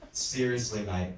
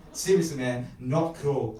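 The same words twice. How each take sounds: First: "Seriously, mate" said firmly, each word weighted; stressed words. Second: Loud, punchy objection; yelled protest. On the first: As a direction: lean on "Seriously", then drop on "mate". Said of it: "I stressed the words". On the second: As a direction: raise the voice in moderate protest. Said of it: "I yelled as I hit the brakes". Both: A narrator's reading.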